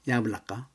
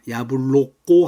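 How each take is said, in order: First: The unstressed vowels are reduced to a. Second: The unstressed vowels are pronounced as full o. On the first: The speaker calls it right. "액센트가 야야 있기 때문에 야블라까가 됩니다" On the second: The speaker calls it wrong. "야블로꼬 하면 안 됩니다"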